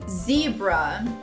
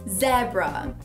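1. Ela é dita com sotaque americano. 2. Ela é dita com sotaque britânico. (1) "em inglês americano" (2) "No inglês britânico"

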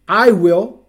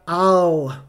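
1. É dito como duas palavras completas. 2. É contraído em uma única sílaba. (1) "I will fica I'll" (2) "I will fica I'll"

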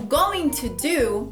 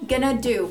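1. Cada palavra é dita completa e separadamente. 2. 'Going to' é reduzido a uma palavra curta. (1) "O going to do vai virar gonna do" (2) "vai virar gonna do"

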